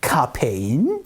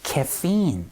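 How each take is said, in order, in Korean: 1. 이 단어는 한국식으로 발음해요. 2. 이 단어는 영어식으로 발음해요. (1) "카페인 이렇게 얘기를 하는 경우가 있으니까" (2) "바로 카페인은요 caffeine, caffeine 이렇게 발음합니다"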